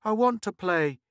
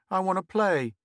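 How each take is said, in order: First: Put-on boy asking wistfully, high. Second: Put-on pleading boy. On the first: Boy wanting to join the younger kids, wistful. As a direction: ask again with longing. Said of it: "showed reluctance and a certain wistfulness". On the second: Boy asking to join.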